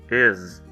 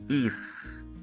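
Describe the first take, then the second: First: The word ends with a buzzing z sound. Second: The word ends with a hissing s sound. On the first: The speaker calls it right. "com o som da letra Z no final" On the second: The speaker calls it wrong. "temos a tendência de pronunciarmos ela como is"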